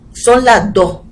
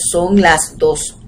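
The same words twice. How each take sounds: First: The final s sounds are weakened to breathy h-sounds. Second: The final s sounds are fully pronounced as s. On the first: This is how it is said in Puerto Rico. "aspiramos esa S final" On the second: This is not how it is said in Puerto Rico. "no decimos"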